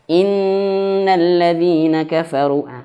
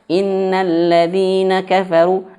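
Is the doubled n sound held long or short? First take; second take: long; short. First: The doubled n is held for a while. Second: The doubled n is passed over quickly. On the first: The speaker calls it right. "harus betul-betul ditahan" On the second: The speaker calls it wrong. "banyak yang sekali yang baca ... jangan"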